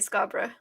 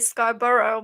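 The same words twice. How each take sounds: First: It is said with a non-American pronunciation. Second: It is said with an American pronunciation. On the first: "but we say Scarborough" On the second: "you guys say Scarborough"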